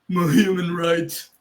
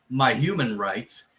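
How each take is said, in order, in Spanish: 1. Se dice con una voz llorona, como si estuviera llorando. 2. Se dice con una voz normal y neutra. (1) "dirían my human rights, estarían llorando básicamente" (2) "en vez de decir"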